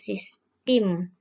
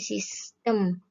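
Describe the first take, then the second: First: The last syllable has an i vowel. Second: The last syllable has an e vowel. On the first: The speaker calls it wrong. "kata tidak bakunya sistem ya" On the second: The speaker calls it right. "kata baku dari sistem ya"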